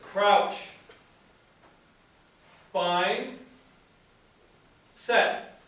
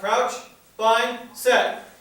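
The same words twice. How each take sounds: First: The calls are spaced slowly with long gaps. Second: The calls are rushed together quickly. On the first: The players are given time to comply. The speaker calls it right. "slow the cadence down. Give them time to comply" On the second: The players are not given time to comply. The speaker calls it wrong. "It's not crouch, bind, set. you didn't give me time"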